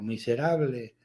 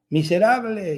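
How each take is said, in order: First: Lower, softer fading repeat; imitated echo. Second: Mock child's shout. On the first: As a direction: answer like a cave, faintly. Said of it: "y el eco". (eco imitado, grave y apagado) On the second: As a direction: play a boy calling out an insult. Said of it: "grita algo". (grito fingido de niño, agudo y alargado)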